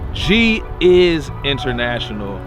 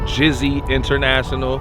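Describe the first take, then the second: First: The name starts with the separate sounds 'G is'. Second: The name starts with the blended sound 'Jizzy'. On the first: The speaker calls it right. "G is International is my brand" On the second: The speaker calls it wrong. "not Jizzy International"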